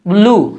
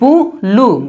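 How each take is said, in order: First: The b glides lightly straight into the l. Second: A full vowel separates the b from the l. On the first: The speaker calls it right. "ऐसे हल्के से जो है ना आवाज निकली" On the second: The speaker calls it wrong. "बू लू नहीं पढ़ेंगे"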